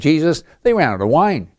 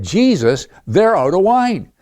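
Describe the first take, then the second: First: It is said casually, in passing. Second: It is said urgently, pressing for action.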